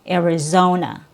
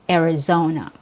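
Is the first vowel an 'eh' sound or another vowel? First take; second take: eh sound; eh sound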